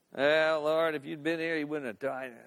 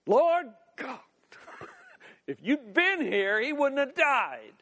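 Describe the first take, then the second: First: Despairing. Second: Exasperated outburst, pitch jumping up; yelling confrontation. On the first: Grieving Martha to Jesus after her brother's death, in despair. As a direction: let it sink away in defeat. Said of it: "she could come in despair". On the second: Martha confronts Jesus over her brother's death, yelling. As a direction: snap it in his face, punching the words. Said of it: "and just yelling at him". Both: Acted.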